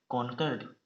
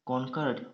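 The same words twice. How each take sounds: The two takes are said the same way.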